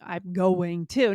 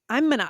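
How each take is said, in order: First: Going to is pronounced in full. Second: Going to is reduced, with no g sound. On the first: "you didn't say" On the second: "you said, I didn't even hear a G in that"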